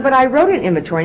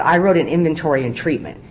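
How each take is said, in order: First: "wrote" pushed up high and louder, protesting; indignant insistence. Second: Said in the usual way. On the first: Retold or imitated. Arguing with her sponsor again, indignant and high. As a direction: push back like a stubborn newcomer.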